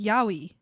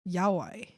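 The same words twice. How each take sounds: First: It is pronounced with Spanish sounds. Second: It is pronounced with English sounds. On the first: "The Spanish way would be" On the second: "I'm reading it as it says"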